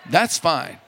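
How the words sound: It is said warmly, in a drawling admiring way. It looks very attractive. "You say it like a southerner"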